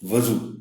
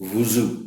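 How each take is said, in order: First: The first vowel sounds like a. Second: The first vowel sounds like u. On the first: The speaker calls it wrong. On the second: The speaker calls it right.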